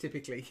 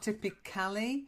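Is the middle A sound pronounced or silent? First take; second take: silent; pronounced. First: The middle A sound is left out. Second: The middle A sound is pronounced. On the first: The speaker calls it right. "it's a silent A" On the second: The speaker calls it wrong. "So it's not typically"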